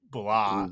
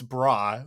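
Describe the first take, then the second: First: The consonant after b is an l sound. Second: The consonant after b is an r sound. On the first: "it's pronounced with an L sound" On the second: "because it's bra"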